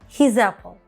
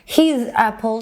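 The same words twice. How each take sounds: First: The two words are linked into one. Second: The two words are said separately. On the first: The speaker calls it right. "Bir kelime yaptım" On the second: The speaker calls it wrong. "His apple değil de"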